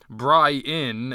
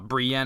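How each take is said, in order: First: The name is said like Brian. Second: The name is said as Bree-en.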